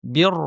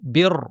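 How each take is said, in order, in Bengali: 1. র উচ্চারণ ভারী ও পূর্ণ। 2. র উচ্চারণ ভারী ও পূর্ণ।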